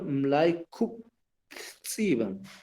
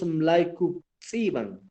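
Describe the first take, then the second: First: A separate t sound comes before the tx. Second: No separate t sound comes before the tx. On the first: The speaker calls it right. "Sino Mlaikutsiban" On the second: The speaker calls it wrong. "No solo decimos Mlaikutsiban"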